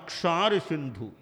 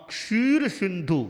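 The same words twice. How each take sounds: First: "क्षार सिंधु" with a long aa in क्षार; long aa vowel. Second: "क्षीर सिंधु" with a long ee in क्षीर; long ee vowel. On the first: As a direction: open क्षार to aa instead of ee. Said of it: "क्षी का क्षा हो गया". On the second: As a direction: stress क्षीर, drawing out its ee. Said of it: "क्षार सिंधु बन गया". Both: Shown as a demonstration.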